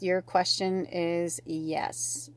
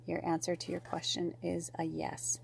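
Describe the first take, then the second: First: Said in the usual way. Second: Hushed, unvoiced whisper; whispered answer. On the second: Real, not acted. Reader giving the viewer their answer, whispered. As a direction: whisper it like a confidence.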